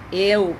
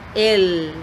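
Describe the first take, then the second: First: The final L sounds like a w vowel. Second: The final L is a clear tongue-tip L. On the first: The speaker calls it wrong. "o el como a gente fala em português, usando o L no mesmo som" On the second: The speaker calls it right. "quando eu falo el, preste atenção na minha língua"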